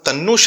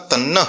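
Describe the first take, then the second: First: The word ends with an 'o' sound. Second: The word ends with an 'ah' sound. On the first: The speaker calls it wrong. "वहां तन्नो शब्द का उच्चारण नहीं करना" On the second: The speaker calls it right. "तन्नह शब्द का उच्चारण करना है"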